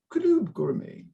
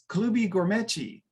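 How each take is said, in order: First: The words end on plain consonant sounds. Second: Each word ends with an added vowel sound.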